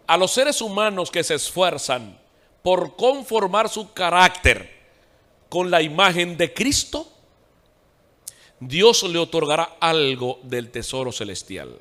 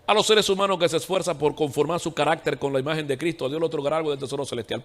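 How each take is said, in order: First: Dictado lento, con pausas entre frases; lectura despacio. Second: Said in the usual way. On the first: Real, not acted. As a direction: lee despacio para que tomen cada palabra. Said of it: "Lo voy a decir despacio". (lectura pausada, marcando cada palabra)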